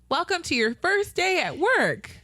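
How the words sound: It is yelled with a lively, friendly melody.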